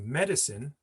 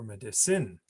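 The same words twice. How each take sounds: First: The stress is on the third-from-last syllable. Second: The stress is not on the third-from-last syllable. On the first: The speaker calls it right. "it's the third from the last stress" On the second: The speaker calls it wrong. "We don't say medicine"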